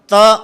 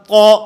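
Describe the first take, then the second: First: The consonant is pronounced thin and light. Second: The consonant is pronounced heavy and full. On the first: The speaker calls it wrong. "गलती क्या होती है" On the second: The speaker calls it right. "ये तो ठीक है"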